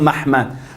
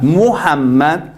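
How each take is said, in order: First: The first vowel is a, with two syllables. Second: The first vowel is u, with three syllables. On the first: This is the reading given by the later vowel points. "en hebreo eh, nuevo, moderno así, lo pusieron Mahmad" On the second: This is the older reading of the word. "la palabra Muhammad está en eh, la Biblia"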